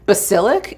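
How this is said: It is said with an American accent. "I'm doing like the American pronunciations"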